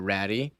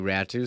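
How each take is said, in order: First: The surname ends in an 'ee' sound. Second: The surname ends in an 'oo' sound. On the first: The speaker calls it wrong. "It's not pronounced uh, Ratty" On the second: The speaker calls it right. "it's Atu Ratu"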